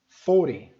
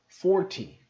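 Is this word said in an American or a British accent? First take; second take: American; British. First: The t is soft, close to a d. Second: The t is crisp and clearly pronounced. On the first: "esses são os números com a pronúncia mais americana" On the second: "Se eu fosse fazer mais britânico, eu faria assim"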